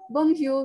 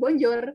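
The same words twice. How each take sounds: First: The word is said with French pronunciation. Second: The word is read out as it is spelled. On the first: The speaker calls it right. "kita bacanya bonjour" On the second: The speaker calls it wrong. "tapi bacanya kita bukan bonjour"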